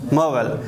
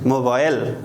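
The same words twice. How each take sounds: First: It is said with an American pronunciation. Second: It is said with a Dari pronunciation. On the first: "in American English, we pronounce it mobile" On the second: "In Dari, we also say mobile"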